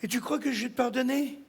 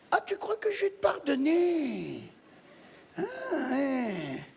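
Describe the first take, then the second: First: Said in the usual way. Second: Wailed question. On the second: Acted. Widow asking her dead husband about forgiveness, plaintive wail.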